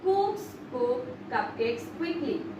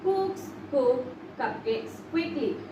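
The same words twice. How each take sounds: Both takes have the same delivery.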